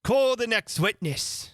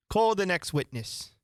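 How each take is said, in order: First: Raised, slowed royal summons; loud call. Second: Said in the usual way. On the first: Acted. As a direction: call out across the court. King calling loudly, first time.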